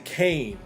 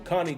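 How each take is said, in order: First: The first word sounds like 'cane'. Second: The first word sounds like 'connie'. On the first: The speaker calls it wrong. "A lot of people say Kane" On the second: The speaker calls it right. "is how you actually pronounce that dog"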